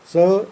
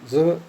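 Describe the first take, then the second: First: The word is said with a full vowel. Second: The word is said with a reduced vowel. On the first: "So is the strong form" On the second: "zo is the weak form"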